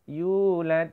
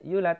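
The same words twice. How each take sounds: First: The first vowel is held long. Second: The first vowel is short. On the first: The speaker calls it right. "Wawunya ada panjang itu. ... Dua harokat ya" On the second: The speaker calls it wrong. "Tidak yulad"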